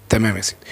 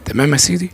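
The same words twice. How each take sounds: First: تمام يا سيدي with a falling, lower, softer close on تمام; settled answer. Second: تمام يا سيدي asked with a rising question tune on سيدي; questioning rise. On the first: Preacher answering his own question, falling tune. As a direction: drop it down as a calm answer. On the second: Preacher checking the listener follows, rising question. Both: Acted.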